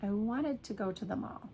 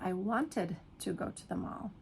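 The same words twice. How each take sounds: First: The sentence is fast with a reduced ending. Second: The sentence is slow with a full ending. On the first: "you're going to say it fast" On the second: "instead of"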